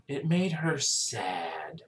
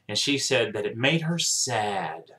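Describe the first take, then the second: First: Softer and slower, letting the words sink in; hushed, drawn-out echo of the phrase; a quiet sad repeat, much softer. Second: Said in the usual way. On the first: Real, not acted. Repeating the doctor's words, moved.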